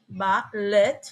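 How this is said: It is said with an American accent. "in America"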